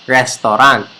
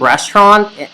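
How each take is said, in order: First: The word is said in a casual, plain way. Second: The word is said in an affected, polished way. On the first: The speaker calls it wrong. "instead of restaurant" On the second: The speaker calls it right. "it should be restaurant"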